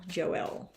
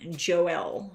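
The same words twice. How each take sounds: First: Joelle whispered under the breath, no voice; whispered practice. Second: Said in the usual way. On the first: Shown as a demonstration. Reader practising the viewer's name, whispering it to herself. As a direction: mouth Joelle softly to get it right. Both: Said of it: "pronouncing things wrong".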